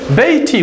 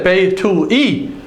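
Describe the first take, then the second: First: An i sound comes right before the ending. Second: A u sound comes right before the ending. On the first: The speaker calls it right. "we say" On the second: The speaker calls it wrong. "We don't say"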